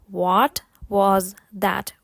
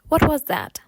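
First: Slow, word-by-word demonstration. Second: Quicker, connected phrase; faster. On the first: Teacher models the question for learners, slowly. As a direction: say it slowly with each word separate. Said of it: "повторити повільно і потім спробувати швидше". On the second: Teacher models the question for learners, faster. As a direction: run the words together at natural speed. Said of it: "потім спробувати швидше". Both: Shown as a demonstration.

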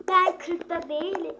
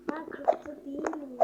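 First: Louder repeat. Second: Said in the usual way. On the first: Real, not acted.

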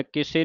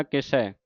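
First: ਕਿਸੇ ending in a close 'ay'; wrong closed ending. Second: ਕਿਸੈ ending in an open 'eh'; correct open ending. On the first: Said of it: "ਨਹੀਂ ਪੜ੍ਹ ਦੇਣਾ". (ਕਿਸੇ ਇੱਕ ਲਾਂ ਨਾਲ) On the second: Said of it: "ਕਿਸੇ ਨਹੀਂ ਪੜ੍ਹ ਦੇਣਾ". (ਕਿਸੈ ਦਲਾਵਾਂ ਨਾਲ) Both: Shown as a demonstration.

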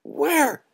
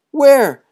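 First: Much higher panicked question; scared boys babbling; gibbering fright. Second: Much higher, much louder frantic cry; boys' fear boiling over; gibbering shout. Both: Acted. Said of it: "gibbered the boys".

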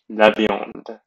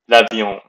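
First: La viande again, nasal "vyahnd" with final d; La viande with a clear d; repeated French viande. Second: La viande with nasal "vyahnd"; French viande. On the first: Teacher repeating the word for students, French pronunciation. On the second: Teacher modelling meat in French, nasal vowel. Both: Shown as a demonstration. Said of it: "repeats word as model".

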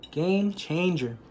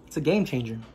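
First: "Game changer" drawn out very slowly, stress on "Game"; slow emphatic. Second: Said in the usual way. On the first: Shown as a demonstration. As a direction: lean hard into "Game", stretch "changer".

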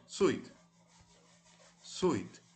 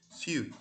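First: "suit" said in full as "soot" with a clear final t; corrected pronunciation. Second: "Suit" slipped as a clipped "su"; a slip on the word; mispronounced. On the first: Teacher correcting her slip, clear full word. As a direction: say the word again properly. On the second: Teacher's slip before correcting herself, clipped. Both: Shown as a demonstration.

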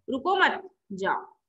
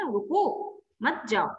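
First: Slow रुको मत as one unit, then जाओ; pause after मत. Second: Slow रुको on its own, then मत जाओ; pause after रुको. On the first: Teacher recapping the second sentence's meaning, pause after मत. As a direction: split it after मत, leaving जाओ alone. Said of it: "और दूसरे सेंटेंस का अर्थ हो गया". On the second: Teacher recapping the first sentence's meaning, pause after रुको. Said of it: "पहले वाले सेंटेंस का अर्थ था". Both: Shown as a demonstration.

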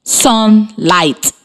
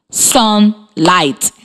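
First: Syllable-by-syllable demo; clapped syllables. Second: Said in the usual way. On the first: Shown as a demonstration. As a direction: split into two beats, sun and light. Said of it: "while I clap the syllables in the word". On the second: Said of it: "Then, I will tell you when it is your turn".

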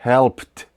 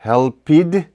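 First: "helped" as one syllable, "helpt"; "helped" with E silent and D turned into T; correct HELPED, silent E. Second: "helped" wrongly as two syllables, "hel-pid"; higher-pitched wrong take, "helped" as "help-id"; mispronounced HELPED. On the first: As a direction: end "helped" on a crisp T, no E. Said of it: "І тут не вимовляється". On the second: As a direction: voice the E in "helped" and end on D. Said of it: "Ми не кажемо helped". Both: Shown as a demonstration.

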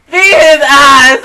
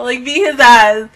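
First: Slow emphatic shout. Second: Said in the usual way. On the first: Retold or imitated. Shouting the insult back at a troll, slow and loud. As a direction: bellow it out, slow and heavy.

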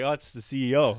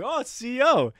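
First: Said in the usual way. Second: High-pitched echo; high, exaggerated astonishment; mock surprise. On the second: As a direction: repeat it in comic realization. Retold surprised echo of answer.

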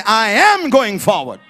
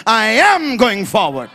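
First: Said in the usual way. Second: "I am going forward" slow, each word weighted; said defiantly. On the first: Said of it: "Everybody say". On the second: Shown as a demonstration. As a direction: say it so the devil hears it. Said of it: "you gotta say it like the devil hears it".

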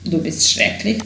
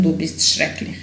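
First: Said in the usual way. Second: Soft unvoiced whisper; whispered repeat. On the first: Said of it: "teacher models phrase for learners". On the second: Shown as a demonstration. Teacher whispering the phrase back to learners. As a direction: breathe it out without voice. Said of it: "teacher repeats phrase for learners".

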